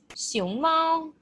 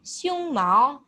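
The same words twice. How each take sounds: First: "xiong mao" drawn out on a higher pitch; correct Mandarin tones. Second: "xiong mao" with "xiong" rising and "mao" changed; mistaken Mandarin tones. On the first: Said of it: "if you want to say panda". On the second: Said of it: "you might end up saying". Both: Shown as a demonstration.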